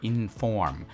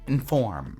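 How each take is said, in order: First: The first syllable is fully pronounced. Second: The first syllable is reduced and barely heard. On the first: The speaker calls it wrong. "Instead of inform" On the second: The speaker calls it right. "We kind of say inform"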